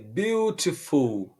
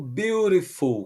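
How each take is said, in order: First: The middle t is a clear t sound. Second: The middle t sounds like a quick r.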